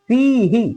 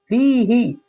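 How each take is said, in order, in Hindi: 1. अंतिम अक्षर छोटा और जल्दी बोला गया है। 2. अंतिम अक्षर छोटा और जल्दी बोला गया है।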